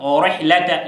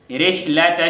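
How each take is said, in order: First: The ra sound is heavy and full. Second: The ra sound is light and thin. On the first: The speaker calls it wrong. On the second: The speaker calls it right. "oteekeddwa okubeera nga ogitoniya noga"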